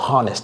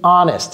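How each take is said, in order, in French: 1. Le H au début est prononcé. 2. Le H au début est muet. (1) "Les francophones disent honest, non" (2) "Il y a un H muet là-bas"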